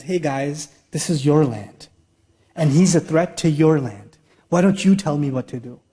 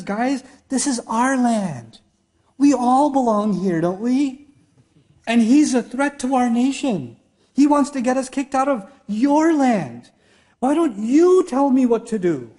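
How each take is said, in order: First: Lower, casual retelling of the tyrant's plea; offhand humble boss asking advice; lowered friendly Pharaoh. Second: A hint of a tyrant playing friendly, higher and slow at first; mock humble Pharaoh. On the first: Retold or imitated. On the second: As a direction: coax the generals like their buddy. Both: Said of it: "he comes down from his".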